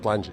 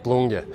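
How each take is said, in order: First: The name is said the common outsider way. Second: The name is said the local way. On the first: The speaker calls it wrong. "It's everybody calling Plunge, but it's not Plunge" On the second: The speaker calls it right. "it's Plunge"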